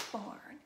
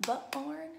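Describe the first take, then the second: First: "barn" said whole in a single beat; one syllable. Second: "butt barn" broken into two beats, BUH-ARN; mock-split "butt barn" as if two syllables, buh-arn; wrongly split word. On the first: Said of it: "Nope, it's just a". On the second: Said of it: "do we call it a". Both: Shown as a demonstration.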